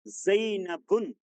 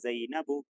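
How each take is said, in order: First: The word ends with an -un sound. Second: The word ends with a plain -u sound. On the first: The speaker calls it wrong. "गलत, क्योंकि ज़ैनब क्या है? ये गैर मुनसरिफ है, गैर मुनसरिफ पर तनवीन नहीं।" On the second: The speaker calls it right. "तो इसको क्या पढ़ेंगे?"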